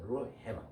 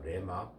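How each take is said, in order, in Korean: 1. r-he-ma처럼 h 소리가 있게 발음해요. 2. re-ma처럼 h 소리 없이 발음해요. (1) "R의 음가인 르가 앞에 나온단 말이에요. H음이 뒤에 와요" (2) "아주 발음이 잘못된 발음이에요"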